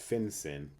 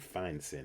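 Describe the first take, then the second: First: The first syllable rhymes with 'fin'. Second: The first syllable rhymes with 'fine'. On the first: This is the common way people say it. The speaker calls it wrong. "sometimes known as" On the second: This matches the pronunciation of 'financial'. The speaker calls it right. "if you're pronouncing it right"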